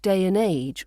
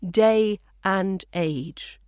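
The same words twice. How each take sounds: First: The word and is reduced to a weak n. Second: The word and is pronounced fully and clearly. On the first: "reduced to its weak form of n" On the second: "a clear day and age"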